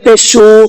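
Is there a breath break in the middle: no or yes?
no. The sounds run together without a breath break. The speaker calls it wrong. "अगर हम पेश पर सांस नहीं तोड़ेंगे ना तो हम ये पढ़ेंगे पेशू ... तो ये गलत हो जाएगा"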